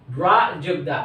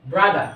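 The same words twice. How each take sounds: First: ব্রা and দা said as separate pieces, যোগ between them; broken into syllables. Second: Said in the usual way. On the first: Shown as a demonstration. Teacher showing learners two syllables in a word, broken into syllables. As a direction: split the word into ব্রা, then দা. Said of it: "ব্যঙ্গে আমরা উচ্চারণ করি". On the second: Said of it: "দুটি শব্দ একসাথে".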